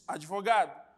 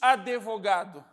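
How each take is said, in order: First: Only a faint vowel links d and v. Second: A full vowel is heard between d and v. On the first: The speaker calls it right. "Nós dizemos" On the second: The speaker calls it wrong. "ninguém diz"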